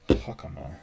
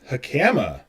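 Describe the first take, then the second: First: The stress is on the first syllable. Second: The stress is on the second syllable. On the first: The speaker calls it right. "the emphasis is on the first syllable" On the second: The speaker calls it wrong. "which is not how you pronounce it"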